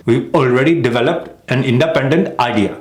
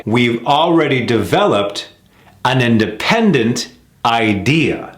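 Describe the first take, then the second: First: "We've already developed an independent idea" quicker, even, lift on "already"; contrasting rhythm. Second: "We've already developed an independent idea" slow, stress on already and independent; slow careful rhythm. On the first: Teacher showing the other rhythm for contrast. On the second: Teacher modelling the American rhythm of a practice sentence. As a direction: stretch it slowly, weight on "independent". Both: Shown as a demonstration.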